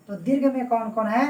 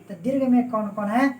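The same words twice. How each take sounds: The two takes are said the same way.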